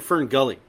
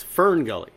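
First: Imitating Fern Gully with the weight on Gully; stress at the end. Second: FERN stressed, Gully falling away after it. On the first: Mimicking the others' odd title reading, stress on Gully. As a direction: push the emphasis onto Gully, not Fern. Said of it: "you putting the emphasis at the end". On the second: Shown as a demonstration. Co-host correcting how they say the title, stress on Fern. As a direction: put the weight on Fern, not on Gully. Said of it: "why are you putting the emphasis at the end".

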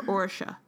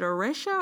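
First: "Orisha" as OR-sha, stress at the front; alternative pronunciation. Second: "Orisha" as oh-REE-sha, stress in the middle; pronunciation query. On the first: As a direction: say "Orisha" with a stressed "OR", middle swallowed. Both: Shown as a demonstration. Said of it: "is it Orisha or Orisha".

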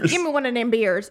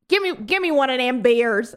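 First: Quick, light Southern twang impression; mock Southern accent. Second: Lightly drawled Southern Travolta impression; mock Southern accent. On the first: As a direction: toss off a bad Southern accent, a little faster. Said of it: "doing a Southern accent?". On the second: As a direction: imitate a bad Southern twang, half-joking. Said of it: "Why is he doing that accent?".

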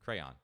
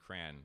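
First: "Crayon" in two syllables, cray-on; crayon correctly. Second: "crayon" said as one syllable, like cran; crayon mispronounced. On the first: Dad repeating the correct two-syllable "Crayon". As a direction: split "Crayon" clearly into cray and on. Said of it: "It's two syllables". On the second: Dad admitting how he always said "crayon", one syllable. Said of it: "saying crayon wrong my whole life". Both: Shown as a demonstration.

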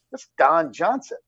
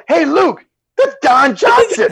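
First: Slow, understated realization; retold stunned aside. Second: Very high, drawn-out excited shout; retold starstruck call. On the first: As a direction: say it to yourself in disbelief. Retold first sighting, to himself. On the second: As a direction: call a teammate over, starstruck. Retold calling out to teammate.

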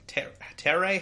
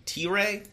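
First: "Terray" said as "TEH-ray", pitched up as a question; higher, questioning "Terray", opening on "ter" rather than "tee"; alternative pronunciation. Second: T-Ray said as "TEE-ray", questioning; "T-Ray" as two syllables, tee then ray, tentatively; tentative pronunciation. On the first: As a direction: try "Terray" with a short e, unsure. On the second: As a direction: try "T-Ray" with a long ee, unsure. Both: Shown as a demonstration. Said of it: "how did you pronounce his name".

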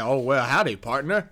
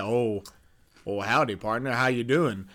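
First: Put-on Southern accent. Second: Lower, softer Southern cowboy greeting; super country accent. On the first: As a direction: greet like a super-country cowboy, lightly. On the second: Acted. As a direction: try a deeper country accent on it. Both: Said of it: "super country accent having motherfucker".

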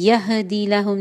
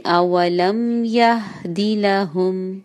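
First: यहदी with a bounced ha; wrong bounce. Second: Slow अवलम यहदी लहुम, ha smooth; slow correct reading. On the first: Teacher repeating the wrong reading. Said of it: "यहदी लहुम नहीं होगा". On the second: Teacher models the correct verse slowly. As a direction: recite slowly, no bounce on the ha. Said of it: "नहीं होगा". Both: Shown as a demonstration.

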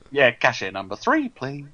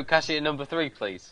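First: Lightly camp cashier call, lilting up on three. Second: Imitating a queue announcer, dropping away on please; recorded cashier-call voice, lightly done; automated cashier announcement. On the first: Retold or imitated. Echoing the post office queue call, camp cashier voice. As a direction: imitate a bouncy post office announcer. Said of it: "that's a very camp cashier voice". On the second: Correcting a colleague with the post office call, automated announcement. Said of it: "I thought it was an automated voice".

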